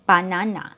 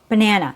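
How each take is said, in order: First: Every syllable has a full, equally strong vowel. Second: The first and last vowels are weak and reduced. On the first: The speaker calls it wrong. "We don't need to make every syllable with the same strength" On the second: The speaker calls it right. "only for your stressed syllable, not for the neutral unstressed syllables"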